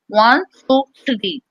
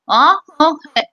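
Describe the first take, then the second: First: The words are clear despite a still tongue. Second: The words are blurred because the jaw stays still. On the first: "by locking my tongue ... look at the clarity here" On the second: "Now I'm going to lock my jaw"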